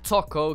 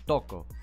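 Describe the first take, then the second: First: The word begins with a clear T sound. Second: The word begins with a sound close to D. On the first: The speaker calls it wrong. "It's not Toko because you don't pronounce it with a T" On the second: The speaker calls it right. "It's like you almost say it with a D"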